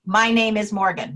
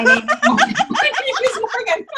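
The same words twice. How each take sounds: First: Said in the usual way. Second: Real laughter breaking into the words; can't get the line out without laughing; laughing through it. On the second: Real, not acted. Teller cracks up retelling punchline.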